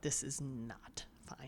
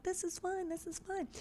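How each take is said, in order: First: Slow, hushed, low dread; alarmed aside. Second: High, soft, singsong calming; soothing reassurance. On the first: Sister looking at the blood, grimly whispering her alarm. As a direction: whisper it slowly, weighing each word. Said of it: "she's looking at the blood like". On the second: Sister calming Claire down, soothing in a high voice. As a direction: coo it lightly to settle someone. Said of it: "calming her down and being like". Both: Acted.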